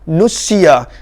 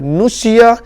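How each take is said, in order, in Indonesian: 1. Bunyi s ditahan lama dan didobel. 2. Bunyi s pendek dan tunggal. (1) "boleh baca dengan sabdu" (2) "boleh baca tanpa sabdu"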